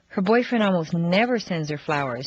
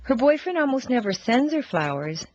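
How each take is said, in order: First: The stress is on the word never. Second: The stress is on the word flowers.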